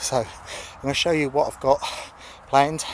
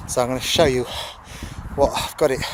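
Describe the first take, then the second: First: Said in the usual way. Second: Panting between words after a sprint; breathless, gasping for air; out of breath. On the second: Real, not acted. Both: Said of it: "sorry, I'm out of breath".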